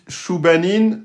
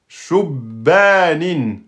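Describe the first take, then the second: First: The b is single; the vowel after it is short. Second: The b is doubled; the vowel after it is long. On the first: The speaker calls it wrong. "vous avez oublié la shadda et le alif" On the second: The speaker calls it right. "vous devez respecter la shadda et la prolongation"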